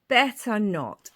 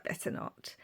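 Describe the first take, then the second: First: Said in the usual way. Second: A voiceless whispered refusal; whispered to herself. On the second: Retold or imitated. Tempted in the shoe shop, whispering to herself.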